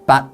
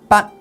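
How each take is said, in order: First: The syllable is said on a medium tone. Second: The syllable is said on a high tone.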